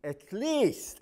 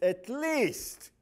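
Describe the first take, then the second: First: "least" को ज़ोर देकर, ऊँचा और तेज़; stress on least. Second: "least" once more pushed high and loud; stress on least. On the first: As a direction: lean on "least", high and loud. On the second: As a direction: hit "least" hard, falling. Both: Shown as a demonstration. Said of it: "at least somewhere".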